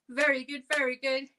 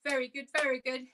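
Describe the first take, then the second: No difference in how they are said.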